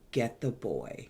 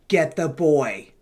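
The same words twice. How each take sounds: First: It is said in a quiet, raspy, wispy voice. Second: It is said in a much louder voice.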